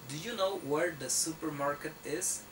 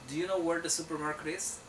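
First: The sentence is said at a slower, separated pace. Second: The sentence is said fast with words linked together.

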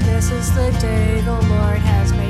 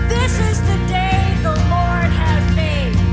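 First: It is said flatly with little energy. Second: It is said loudly with lively energy. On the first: The earlier congregation was unenthusiastic. The speaker calls it wrong. "First service was like" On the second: The congregation is enthusiastic. The speaker calls it right. "You guys can give me a little more energy"

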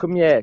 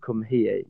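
First: It is said in a Welsh accent, here like yeah. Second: It is said plainly, with a clear h sound. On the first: "if you do the Welsh accent right" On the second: "instead of saying "come here,""

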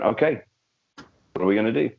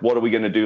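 First: It is said in a calm, practical tone. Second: It is said in a panicked, worried tone.

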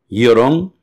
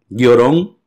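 The two takes are said the same way.

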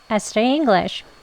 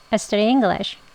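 No difference in how they are said.

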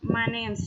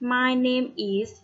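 First: It is said quickly with the contraction name's. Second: It is said clearly with is as a full word.

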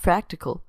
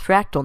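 First: The word is said with three syllables. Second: The word is said with two syllables. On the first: The speaker calls it wrong. "not fractical" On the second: The speaker calls it right. "It's fractal"

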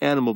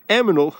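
First: The n sound comes before the m sound. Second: The m sound comes before the n sound. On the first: The speaker calls it right. "It's actually animal" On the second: The speaker calls it wrong. "like my brother says"

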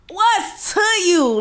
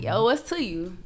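First: It sounds challenging and confrontational. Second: It sounds casual and friendly. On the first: The speaker is questioning what someone just said. "if you say some shit that's pause, you be like" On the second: The speaker is greeting someone to start a conversation. "if you trying to J down or like talk to somebody, you'll be like"

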